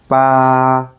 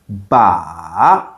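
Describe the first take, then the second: First: The pitch stays high and level. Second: The pitch dips down and then rises. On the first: "The first tone is flat and steady like you're singing a note" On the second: "going down and up"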